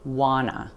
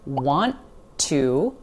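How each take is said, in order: First: The T sounds disappear, giving 'wanna'. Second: Both T sounds are pronounced clearly. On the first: "that T sound totally disappears" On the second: "want to, reduces to wanna"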